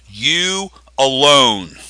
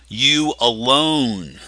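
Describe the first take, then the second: First: "you alone" slowed right down, "alone" leaned on and falling; emphatic stress. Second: "You alone" drawn out slowly, punch on "You" then falling; emphatic stress. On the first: Pastor stressing the Greek emphasis to his congregation, slow and emphatic. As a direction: stretch out "you alone", weight landing on "alone". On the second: Pastor repeating the point to his congregation, slow stress on "You". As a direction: hit "You" hard and slow, as if pointing at each listener. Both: Shown as a demonstration. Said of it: "it's emphatic".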